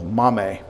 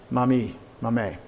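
First: "mame" stressed on MAH, as MAH-meh; stress on first syllable. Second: "Mami, mame" said slowly, with "mame" as MAH-meh; Greek pronunciation. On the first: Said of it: "the accent is on the first syllable". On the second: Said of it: "That's how you would say grandmother". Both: Shown as a demonstration.

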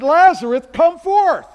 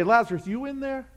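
First: High, loud, authoritative command; Jesus commanding Lazarus, thunderous call; commanding shout. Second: Hesitant, half-asking call into the tomb; tentative knock-on-the-door voice; unsure peek into the tomb; timid question. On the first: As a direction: order the dead man out with full force. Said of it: "He said". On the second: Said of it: "He didn't say". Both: Shown as a demonstration.

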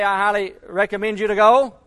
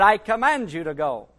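First: A touch of mock politeness, rising at "go"; mild suggestion. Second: "I command you to go" with weight on "I" and "command", falling firmly. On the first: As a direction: offer it like a gentle option. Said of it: "Jesus Christ didn't say". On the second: Retold or imitated. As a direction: lay down "command" as an order. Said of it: "but he said".

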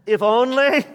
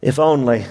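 First: High emphatic. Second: Said in the usual way. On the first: Acted. Repeated quote, highest.

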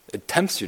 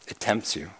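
First: "It tempts you," lifted higher on "tempts"; soft rising nudge; questioning rise. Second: Softer, falling "It tempts you."; hushed, heavy warning. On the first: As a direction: toss it up as a knowing question. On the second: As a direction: drop the voice and let "tempts" fall. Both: Shown as a demonstration. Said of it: "repeats the phrase twice".

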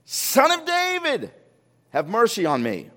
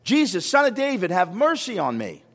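First: Imitated yell. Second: Imitated call, high at the start. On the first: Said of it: "He yells out even louder". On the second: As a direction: call out for mercy, pitch raised then falling. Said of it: "He called out".

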